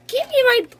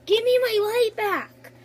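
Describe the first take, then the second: First: Loud, insistent repeat of the demand; louder demand. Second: Said in the usual way. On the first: Real, not acted. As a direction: raise the voice and insist. Sister demanding her light back.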